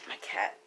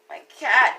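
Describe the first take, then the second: First: Breathy whisper of despair. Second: Said in the usual way. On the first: Acted. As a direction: whisper it like a private lament. Whispered lament about her cat.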